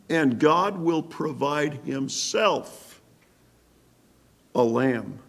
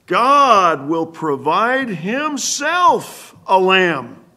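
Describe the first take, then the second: First: Said in the usual way. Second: Slow, loud, high proclamation, each word drawn out; preaching shout. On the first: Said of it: "Special emphasis upon the word lamb". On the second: Real, not acted. Preacher to the congregation, declaring God provides the lamb, slow and loud. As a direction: proclaim it slowly at full force. Preacher thunders the key verse.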